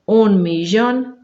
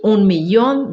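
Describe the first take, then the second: First: The ll sounds like zh in measure. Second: The ll sounds like a light ee glide. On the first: "também temos a pronúncia G" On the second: "Eu leio como I"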